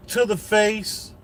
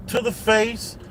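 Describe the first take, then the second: No difference in how they are said.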